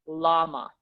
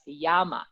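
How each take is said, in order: First: The word begins with an L sound. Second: The word begins with a Y sound. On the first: The speaker calls it wrong. "A lot of English speakers will say llama" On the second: The speaker calls it right. "the double L has has a Y sound. So that's Yama"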